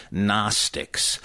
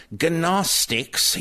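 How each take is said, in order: First: "Gnostics" as NOSS-tiks; silent G. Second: "Gnostics" as guh-NOSS-tiks, pitched high; mispronounced with hard G. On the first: Shown as a demonstration. Correcting the actor, "Gnostics" with silent G. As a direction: begin "Gnostics" on a clean n, no G. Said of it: "The G is silent". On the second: Retold or imitated. Quoting an actor's shocking slip, "Gnostics" as guh-NOSS-tiks. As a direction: sound the G in "Gnostics" as its own syllable. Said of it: "a shocker when he says".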